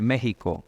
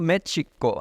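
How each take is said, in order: First: It is pronounced the way Spanish speakers say it. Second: It is pronounced the way Nahuatl speakers say it. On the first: This is the usual Spanish form of the name. "en vez de México" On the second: "ellos si pronunciaran en su lengua las, los nombres de los lugares, se oiría México"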